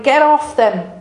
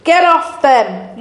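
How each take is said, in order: First: Shouted. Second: Slower shout. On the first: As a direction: stress on off, falling. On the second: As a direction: stress on get, louder and slow. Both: Retold or imitated. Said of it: "screaming and shouting".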